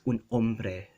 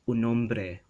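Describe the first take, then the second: First: A glottal stop separates the two words. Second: The two words run together without a break. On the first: This is the Philippine Spanish way. "but in Philippine Spanish, it's un hombre... You'll hear that sound, the glottal sound, the stop" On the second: This is the standard Spanish way. "in standard Spanish, it's un hombre"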